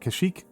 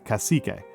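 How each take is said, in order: First: The name ends without a final vowel sound. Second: The name ends with a pronounced final vowel. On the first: The speaker calls it wrong. "is how I want to pronounce it" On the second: The speaker calls it right. "so it's not like a silent U E"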